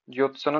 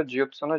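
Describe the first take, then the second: First: ज्योत्सना said 'jotsana'; dropped 'y'. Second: Said in the usual way. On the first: Shown as a demonstration. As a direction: say ज्योत्सना without the y glide. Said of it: "नहीं होता". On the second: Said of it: "विशेष ध्यान दीजिएगा".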